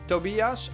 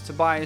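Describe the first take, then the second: First: The name is given a German pronunciation. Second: The name is given a non-German pronunciation. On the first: The person is assumed to be German. "his name sounds a bit German, so that would be Tobias" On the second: The person is assumed not to be German. "otherwise it's Tobias"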